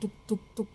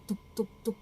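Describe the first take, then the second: No difference in how they are said.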